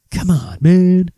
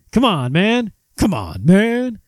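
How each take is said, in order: First: Slow, mock Joe Biden catchphrase; Biden impression. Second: Biden impression. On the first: Host mimics Joe Biden's catchphrase, slow and drawn. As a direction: drag out the man like an old politician. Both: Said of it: "that's his favorite thing".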